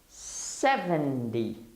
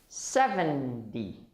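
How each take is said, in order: Both takes have the same delivery.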